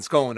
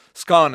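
First: "scone" with a long O, like skohn; long-vowel "scone", as in phone; scone rhyming with phone. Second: "scone" with a short O, like skon; short-vowel "scone", as in gone; scone rhyming with gone. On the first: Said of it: "both scone and scone are". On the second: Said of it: "says both scone and scone". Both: Shown as a demonstration.

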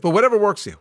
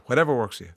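First: Whatever stressed, higher and louder; shrugging emphasis. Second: Said in the usual way. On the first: Real, not acted. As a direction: brush it off with a push on whatever. Host shrugs off listener advice.

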